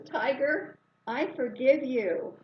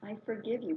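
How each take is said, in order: First: Louder, slower proclamation to the tiger; booming, deliberate pardon to the tiger; loud declaration. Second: Said in the usual way. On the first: Retold or imitated. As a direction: call it out firmly from a distance. Declaring forgiveness from a distance.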